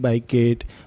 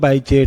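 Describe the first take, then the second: First: The name is said with a 'k' sound. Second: The name is said with a 'ch' sound.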